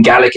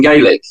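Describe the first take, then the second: First: First vowel of "Gaelic" short, as in "gal"; short-a pronunciation. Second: First vowel of "Gaelic" long, as in "gay"; long-a pronunciation. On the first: Quizzing Americans on Scotland, "Gaelic" said as GAL-ik. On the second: Quizzing Americans on Scotland, "Gaelic" said as GAY-lik. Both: Shown as a demonstration. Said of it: "difference between Gaelic and Gaelic".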